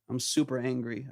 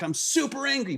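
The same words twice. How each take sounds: First: It is said calmly, without anger. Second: It is said with real anger.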